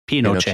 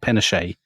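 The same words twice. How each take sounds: First: The name ends with a clear T sound. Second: The name ends without a T sound. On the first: This is how the man himself says his name. "T at the end of the word. So actually, what he actually says is Pinochet" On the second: This is the usual British way of saying it. "because we're British, so we'll obviously slip into calling him"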